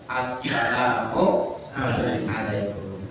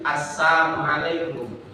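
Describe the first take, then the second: First: The L sound is pronounced clearly. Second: The L sound is dropped from the word. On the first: The speaker calls it right. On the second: The speaker calls it wrong.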